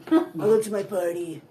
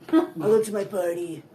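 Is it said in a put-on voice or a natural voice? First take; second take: put-on; put-on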